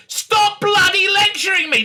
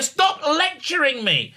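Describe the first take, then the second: First: Loud, high outburst at being lectured; mock-furious yell, full voice; exasperated shout. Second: High and slow, without shouting; exasperated demand. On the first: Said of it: "he actually says, turns around and says". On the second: Retold or imitated. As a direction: spell out the annoyance, drawn out. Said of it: "That's actually a".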